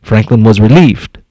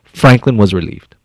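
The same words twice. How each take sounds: First: Weight on relieved, voice lowered; relieved stressed. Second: Said in the usual way. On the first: Shown as a demonstration. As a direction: lean into the word relieved. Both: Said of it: "See that?".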